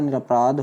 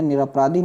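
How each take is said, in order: First: "निरपराध" ending on dh, no ee; correct "निरपराध". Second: "निरपराधी" with a final long ee; wrong "निरपराधी". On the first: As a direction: stop निरपराध on the ध. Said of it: "होता है". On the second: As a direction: end निरपराधी on dhee. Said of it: "नहीं होता". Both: Shown as a demonstration.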